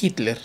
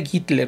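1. El nombre empieza con un sonido h aspirado. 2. El nombre empieza con un sonido de g fuerte. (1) "no Hitler" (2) "pero se pronuncia Gittler"

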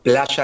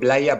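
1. La palabra se dice con acento argentino. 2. La palabra se dice con acento español. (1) "en vez de decir playa" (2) "digo playa, para que me entiendan"

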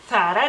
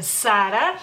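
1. Se pronuncia como lo dicen los españoles. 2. Se pronuncia como lo dicen los mexicanos. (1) "en España dicen obviamente Zara. Zara, digamos así" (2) "Ustedes dicen Zara"

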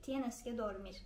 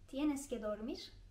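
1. Ses sonda düşer, bir ifade cümlesi gibi. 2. Ses sonda yükselir, bir soru cümlesi gibi. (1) "uyumak zorundasın" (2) "Bunu vurguyla söylerseniz"

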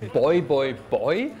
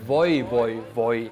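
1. Der Ruf beginnt mit einem B-Laut. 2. Der Ruf beginnt mit einem V-Laut. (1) "Die rufen übrigens nicht"

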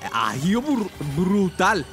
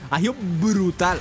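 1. El sonido de la b al inicio de 'brutal' es corto. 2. 'Agio' es rápido y la b se alarga. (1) "es que a veces no me sale" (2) "Ahí está. El secreto es, decía, el agio muy rápido, agio... Y luego detenerte mucho en la B"

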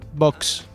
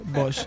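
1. La palabra termina en un sonido ks. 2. La palabra termina en un sonido s sencillo. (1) "Se dice box, digo una C y después una S" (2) "todo el mundo dice vos, y eso es de electrodoméstico"

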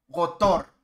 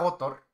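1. El acento está en la última sílaba. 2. El acento está en la primera sílaba. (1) "la batónica en Tor" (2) "No, Gotor no"

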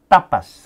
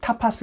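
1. "t"와 "p"는 긴장되어 있고 기식이 없습니다. 스페인어식입니다. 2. "t"와 "p"는 기식이 있습니다. 영어식입니다. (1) "T를 네. 세게 발음하거든요" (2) "영어로는 타파스 그러지만"

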